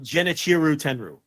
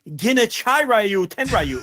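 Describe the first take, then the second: First: The name is said in a short, plain form. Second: The name is said with extra, drawn-out syllables. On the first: This is how the speaker always says it. "I've always called him" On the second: This is how someone else said it. "he gave it nineteen syllables"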